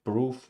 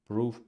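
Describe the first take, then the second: The two takes are said the same way.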